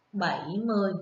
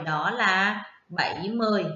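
First: Said in the usual way. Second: "bảy mươi" stretched long with a falling end; drawn-out answer. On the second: Shown as a demonstration. Teacher confirming the answer to her class, slow and stretched. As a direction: lean on "mươi" and hold it. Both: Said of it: "Cô đọc".

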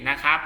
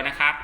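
The two takes are said the same way.

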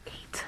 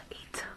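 No difference in how they are said.

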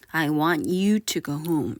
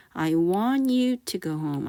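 First: You stressed and falling, rest slow. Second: Very slow, even repeat-after-me line; slow model sentence. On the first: Teacher showing stress on "you" for learners. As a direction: lean hard on "you", slowly. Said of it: "you를 강조하셔서 발음하셔도 돼요". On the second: Teacher leading a repeat-after-me drill, slowly. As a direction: say it slowly for the class to copy. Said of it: "한번 따라해 볼게요". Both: Shown as a demonstration.

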